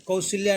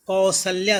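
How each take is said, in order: First: कौशल्या said with "shi" in the middle, kau-shil-ya; wrong pronunciation. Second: कौशल्या said kau-sal-ya, with an open "sa"; correct pronunciation. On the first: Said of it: "कौशल्या नहीं होगा". (गलत उच्चारण, कौशल्या में "शि" की आवाज़) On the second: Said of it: "कौशल्या सही होता है". (सही उच्चारण, कौशल्या में "सल" की आवाज़) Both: Shown as a demonstration.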